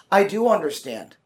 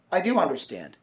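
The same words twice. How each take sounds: First: "I" pushed as the key word, falling tune on "I do understand"; stress on I. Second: Softer, with "do" pressed in "I do understand"; stress on DO. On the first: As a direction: lean on "I", not on "do". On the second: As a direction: press the word "do", quietly. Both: Retold or imitated. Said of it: "she said".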